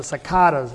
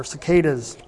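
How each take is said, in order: First: Cicadas said with an "ah" in the middle; alternative pronunciation of cicadas. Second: Cicadas said with an "ay" in the middle; alternative pronunciation of cicadas. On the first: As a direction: say "si-KAH-das" for cicadas. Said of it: "or cicadas". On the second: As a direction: say "si-KAY-das" for cicadas. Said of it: "or the cicadas". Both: Shown as a demonstration.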